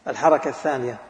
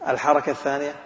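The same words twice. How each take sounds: Both takes have the same delivery.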